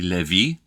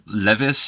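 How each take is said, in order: First: The name is said with a French pronunciation. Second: The name is said with an English-style pronunciation. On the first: The speaker calls it right. "is actually" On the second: The speaker calls it wrong. "this guy's French pronunciation isn't terrible, but it's not great either"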